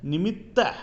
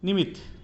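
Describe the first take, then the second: First: The final consonant is said as a doubled sound. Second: The final consonant is said as a single sound. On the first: The speaker calls it right. "शुद्ध है" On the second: The speaker calls it wrong. "अशुद्ध है"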